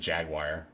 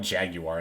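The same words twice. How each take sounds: First: It is said with an American pronunciation. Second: It is said with a British pronunciation.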